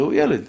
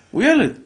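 First: Said in the usual way. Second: הוא ילד repeated much higher and louder; emphatic repeat. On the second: Shown as a demonstration. Preacher insisting to fathers the boy is only a child, emphatic. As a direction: punch ילד the second time, almost shouting.

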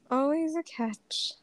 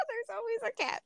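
First: Hushed repeat. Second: High, softer voice through laughter; giggly, high-pitched lament; laughing. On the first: Repeats it after laughing. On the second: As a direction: let it ride up on a laugh. Laughs off her romantic luck. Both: Real, not acted.

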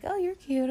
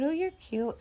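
First: Higher, lightly cooing; mock flirty couple. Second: Higher, lightly cooing echo; mock flirty couple. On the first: Couple smiling at each other, mock flirty coo. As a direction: tease the lovers' first flirt. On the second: Lovers answering each other, mock flirty coo. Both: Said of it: "just being like".

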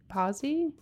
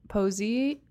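First: Posey said as PAH-zee with an open a; Posey with the o as in "pop", unsure; second pronunciation try. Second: Posey said as POH-zee with a long o; Posey with the o as in "pose"; first pronunciation try. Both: Shown as a demonstration. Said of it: "don't know how you pronounce his name".

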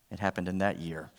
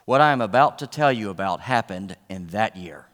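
First: It happened in that year, softer, with "that" leaned on; quiet emphatic repeat landing on "that"; stress on that. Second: Said in the usual way. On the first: Shown as a demonstration.

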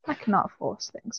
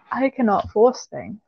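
First: Much softer repeat of "I cannot force things."; quiet. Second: Said in the usual way. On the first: Real, not acted. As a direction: drop "I cannot force things." to almost nothing. Repeated, second take quieter.

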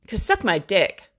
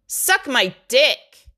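First: Said in the usual way. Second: Slow, higher and louder, every word hammered; mock telling-off. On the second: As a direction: spell it out slowly and hard at the ex. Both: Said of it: "how bad I wanted to be like".

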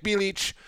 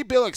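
First: Bilic said BEE-litch, ch ending; correct pronunciation. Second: Bilic said BILL-ick, hard k ending; old wrong pronunciation. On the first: Shown as a demonstration. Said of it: "Bilic is the right pronunciation". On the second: Retold or imitated. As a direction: Bilic as BILL-ick, not bee-litch. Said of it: "Bilic, I should call him".

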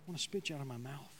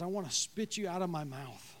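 First: Low, fast and much softer; hushed repeat. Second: Said in the usual way. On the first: Acted. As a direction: let it drop to a quick hush. God's words, repeated hushed.

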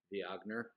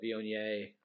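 First: "Viognier" read as vee-OG-ner; "Viognier" anglicized, ending in -ner; joke mispronunciation. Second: "Viognier" ending in a French -yay; French-style Viognier. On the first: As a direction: say "Viognier" with a hard g. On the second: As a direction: say "Viognier" as vee-oh-NYAY. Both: Shown as a demonstration. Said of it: "as I like to call it".

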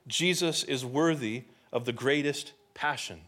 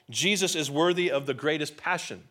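First: Deliberate, spaced-out repeat of a key point. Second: Said in the usual way. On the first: Real, not acted. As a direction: let each phrase land separately. Main point repeated for emphasis.

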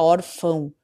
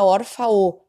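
First: "órfão" ending in a nasal "ão". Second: "órfão" wrongly ending in an oral "fa-o"; non-nasal ending. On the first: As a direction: send the "ão" of "órfão" through the nose. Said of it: "ele sai anasalado". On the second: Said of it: "pra indicar que a gente não fala". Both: Shown as a demonstration.

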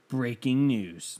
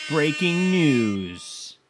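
First: Slow, drawn-out breaking news; half-hearted news intro; mock news announcement. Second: Very slow, booming bulletin voice; dramatic breaking news read; big news announcer. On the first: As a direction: stretch it like a news bulletin. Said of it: "I have breaking news". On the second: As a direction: boom it out like a TV news anchor. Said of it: "Need a air horn sound effect". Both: Shown as a demonstration.

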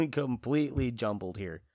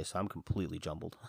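First: Louder, laughing through it; a louder laughing second take; laughing emphasis. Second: Said in the usual way. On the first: Real, not acted. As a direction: repeat it with a laugh.

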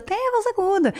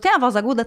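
First: "Tem a voz aguda." said high, as a settled fact; confirming tune. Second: "Tem a voz aguda?" asked as a real question; questioning tune. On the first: ("Tem a voz aguda." afirmado, em tom mais agudo) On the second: ("Tem a voz aguda?" em tom de pergunta) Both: Shown as a demonstration. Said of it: "Deixa eu conhecer esse produto".

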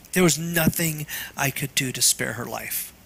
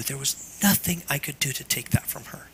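First: Said in the usual way. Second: Breathless grieving whisper; real whispered grief, voice giving out. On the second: Real, not acted. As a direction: barely whisper it, holding back grief. Grieving father over lost daughter.

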